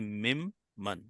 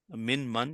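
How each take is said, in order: First: The first word's n merges into an m sound. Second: The first word ends with a clear n sound. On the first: The speaker calls it right. "you say mim man" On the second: The speaker calls it wrong. "instead of saying min mum, min man"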